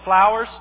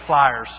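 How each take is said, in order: First: The vowel sounds like 'ow', as in flowers. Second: The vowel sounds like 'eye', as in flyers. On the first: The speaker calls it right. "notice I said it right that time" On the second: The speaker calls it wrong. "I always say flyers"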